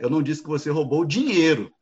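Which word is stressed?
dinheiro. The stress is on "dinheiro".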